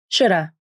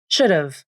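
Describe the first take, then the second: First: The word ends with a weak vowel. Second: The word ends with a v sound. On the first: "The final V in of can also be dropped" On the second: "This sounds like should've"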